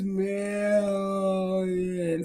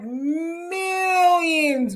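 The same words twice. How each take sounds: First: The word is drawn out very slowly. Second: The word is said at normal speed.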